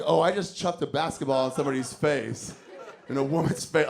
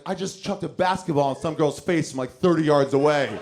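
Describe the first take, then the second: First: Sheepish, guilty admission; a hint of real guilt; guilty conscience. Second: Louder, gloating brag; cocky and thrilled, building up; proud brag. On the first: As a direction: own up to it with a wince. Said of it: "half of me was like". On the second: Retold or imitated. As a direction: boast about the sickest shot. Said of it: "But the other part of me is like".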